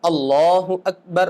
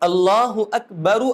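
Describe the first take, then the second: First: The last word ends on a bare consonant. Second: The last word ends with an added 'u' vowel. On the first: The speaker calls it right. "हर कलिमे को साकिन करना सुन्नत है" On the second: The speaker calls it wrong. "ये सुन्नत के खिलाफ है। उस पे पेश नहीं पढ़ना है"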